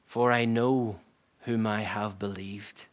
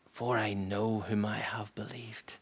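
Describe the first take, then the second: First: Said in the usual way. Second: Near-whispered, slow reverent verse; hushed testimony. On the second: Retold or imitated. Preacher echoing the apostle at the end, hushed. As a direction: repeat it softly and slowly, letting it sink in.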